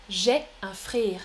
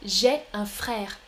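First: Frère with a closed vowel, near "frire"; altered vowel. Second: Frère with an open è, as in père; correct open è. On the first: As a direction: narrow the è in "frère" towards é or i. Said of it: "L'accent est un peu différent". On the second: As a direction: model "frère" carefully with a wide è. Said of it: "Je répète". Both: Shown as a demonstration.

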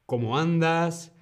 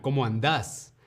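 First: Said in the usual way. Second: Argentinian, stress on the last syllable of "andás"; Argentinian voseo. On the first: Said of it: "contrast with Argentine form". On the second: Shown as a demonstration. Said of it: "O en Argentina".

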